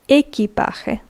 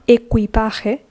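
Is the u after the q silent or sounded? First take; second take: silent; sounded. First: The u after the q is silent. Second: The u after the q is sounded. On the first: The speaker calls it right. "Like the U doesn't exist" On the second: The speaker calls it wrong. "not equipaje"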